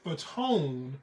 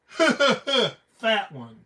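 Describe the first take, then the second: First: It is read as a single surname. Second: It is read as the two words 'fat one'. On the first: The intended reading of the name. "instead of saying [name]" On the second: A joking misreading of the name. "I immediately say fat one"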